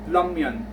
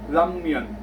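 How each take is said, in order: First: The word begins with an L-like sound. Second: The word begins with an L-like sound.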